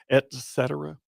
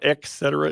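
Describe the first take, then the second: First: The first syllable is said with a T sound. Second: The first syllable is said with a K sound. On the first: The speaker calls it right. "It's just et cetera with a T" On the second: The speaker calls it wrong. "It's not et cetera"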